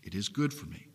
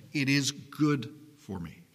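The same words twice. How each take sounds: First: Softer, lower repeat to let it sink in; quiet echo. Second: Said in the usual way. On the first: Acted. Preacher repeating to his congregation, softly. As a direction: say it again gently, lower.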